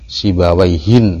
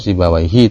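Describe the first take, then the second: First: The word ends with an added n sound. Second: The word ends on a short i vowel. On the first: It refers to anyone with that name. "maka harus ditanwin. Sibawaihin ya" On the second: It refers to one specific, known person. "Kalau Sibawaihi tanpa tanwin"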